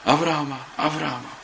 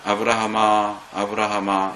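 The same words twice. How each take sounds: First: It is shouted fast, loud and urgently. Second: It is called in a slow, leisurely way.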